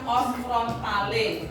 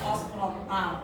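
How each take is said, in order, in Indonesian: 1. Kata ini diakhiri dengan bunyi vokal. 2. Kata ini diakhiri tanpa bunyi vokal. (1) "harusnya dibaca os frontale" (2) "tapi kalian menyebutnya os frontal, itu kurang lagi satu nilainya"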